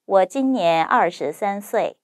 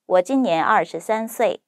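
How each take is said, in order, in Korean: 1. 원어민의 자연스러운 속도로 말하고 있어요. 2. 빠르게 말하고 있어요. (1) "두 번째, 원어민 발음 속도로 자연스럽게" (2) "세 번째, 빠르게"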